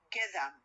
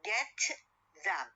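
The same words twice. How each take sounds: First: The boundary sounds merge and change manner. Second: Each sound is said clearly and separately. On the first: "when I pronounce them, it will be like get them" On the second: "when I say get them"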